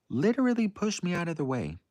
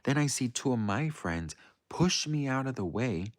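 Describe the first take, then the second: First: Literally pitched high and pushed hard; high, emphatic retelling; stress on literally. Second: Said in the usual way. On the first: Real, not acted. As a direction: punch literally in disbelief. Emphatic repeat of pushed aside.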